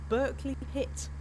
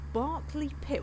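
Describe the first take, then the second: First: The first syllable sounds like 'bur'. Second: The first syllable sounds like 'bar'. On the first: "they'll pronounce it Berkeley over there" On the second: "It's called Barclay Pit"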